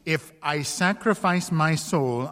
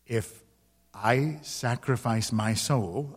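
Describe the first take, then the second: First: Said in the usual way. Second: Slow and weighed, each word deliberate; a man weighing his soul, slow and careful; said slowly. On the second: A narrator's reading. Lover bargaining his soul for the lady, slowly and deliberately. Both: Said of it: "I said slowly".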